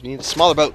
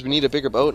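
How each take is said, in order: First: "smaller" punched a little louder; stress on smaller. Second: Said in the usual way. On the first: Shown as a demonstration. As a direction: lean hard on the word "smaller". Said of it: "Now we need a phrase". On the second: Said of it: "You know the phrase".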